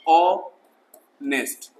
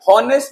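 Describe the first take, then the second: First: The word begins directly with a vowel sound. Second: The word begins with an audible h sound. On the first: The speaker calls it right. "मैं बोल रहा हूं ऑनेस्ट" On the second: The speaker calls it wrong. "हॉनेस्ट नहीं होता है"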